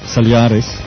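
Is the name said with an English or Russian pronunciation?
Russian. It is said with a Russian pronunciation. It names the Russian film.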